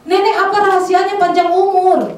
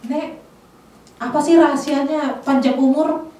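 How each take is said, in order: First: The question is said loudly. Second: The question is said at normal volume.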